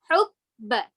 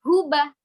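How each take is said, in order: First: The middle b sound is pressed and held. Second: The middle b sound is short, not held. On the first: The speaker calls it right. "Jadi tekan, tapi hukba. Ditahan dulu" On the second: The speaker calls it wrong. "bukan huba"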